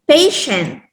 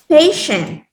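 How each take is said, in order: The two takes are said the same way.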